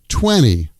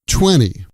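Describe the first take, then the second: First: The T after the N is dropped. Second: The same.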